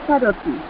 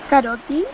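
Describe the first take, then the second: The two takes are said the same way.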